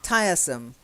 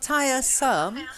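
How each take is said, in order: First: The stress is on the first syllable. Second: The stress is on the second syllable. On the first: The speaker calls it right. "The the stress is on tire" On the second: The speaker calls it wrong. "not tiresome"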